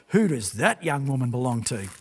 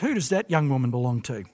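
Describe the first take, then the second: First: The emphasis is marked and pointed throughout. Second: The emphasis is plain and even throughout. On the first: The asker has clearly noticed the woman and is interested. The speaker calls it right. "but perhaps it was a bit more like" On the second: It is a simple request for information. The speaker calls it wrong. "maybe I haven't got the emphasis on the right syllables there"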